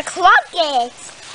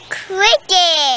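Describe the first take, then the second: First: Crockets, with an ah in the first syllable; mispronounced crickets. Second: Cricket, first vowel a short i; corrected pronunciation. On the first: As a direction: say crockets, first vowel like rock. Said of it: "You mean crickets?". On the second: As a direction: repeat cricket carefully, with i as in kick. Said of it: "Good job". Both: Real, not acted.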